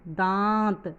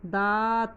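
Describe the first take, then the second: First: The vowel is nasalized. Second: The vowel is plain, without nasalization. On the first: The speaker calls it right. "दात नहीं, दांत, चंद्र बिंदु होने के कारण" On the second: The speaker calls it wrong. "अगर ये चंद्र बिंदु नहीं होगा तो अपन कैसे पढ़ेंगे इसको?"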